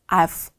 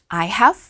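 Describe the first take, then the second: First: The words are contracted into one syllable. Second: Both words are said in full.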